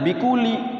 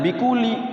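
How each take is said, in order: First: The l is short and single. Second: The same.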